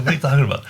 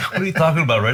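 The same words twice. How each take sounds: First: High, loud incredulous question; can't believe what he just heard; retold disbelief. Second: High, loud incredulous question to Red; even louder, still not believing it; retold disbelief. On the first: His retold disbelief at Red.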